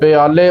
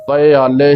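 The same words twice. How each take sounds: First: The first two vowels run together as pya. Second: The first two vowels are kept apart as pi-a. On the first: The speaker calls it wrong. "ਪਿਆਲੇ ਉਚਾਰਨ ਨਹੀਂ ਕਰਨਾ" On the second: The speaker calls it right. "ਈੜੀ ਦੇ ਨਾਲ ਹੀ ਇਸ ਦਾ ਉਚਾਰਨ ਕਰਨਾ ਹੈ"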